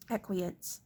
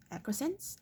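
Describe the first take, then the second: First: Said in the usual way. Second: Acquiescence? asked high and soft, rising at the end; puzzled rising query. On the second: Shown as a demonstration. Reader checking a hard word, rising question.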